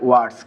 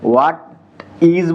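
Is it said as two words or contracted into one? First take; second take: contracted; two words. First: It is said as one short contracted word. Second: It is said as two full separate words. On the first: "ওরা একবারে বলে" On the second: "হোয়াট ইজ বলি আমরা"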